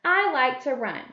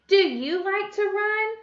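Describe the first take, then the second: First: "I" leads, "run" falls away; statement tune. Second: Slow, high-pitched question climbing on "run"; question tune. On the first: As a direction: read "I like to run" as a statement with a falling end. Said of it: "ends with a period". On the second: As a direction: ask "Do you like to run?" slowly, lifting "run". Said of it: "This type of sentence is a question". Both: Shown as a demonstration.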